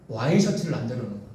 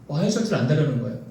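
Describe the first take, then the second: No difference in how they are said.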